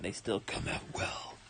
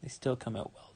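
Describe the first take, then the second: First: Soft unvoiced whisper. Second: Said in the usual way. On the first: Real, not acted. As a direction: breathe it out quietly. Voice gone, repeats quietly. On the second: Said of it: "I got a weird raspy voice there".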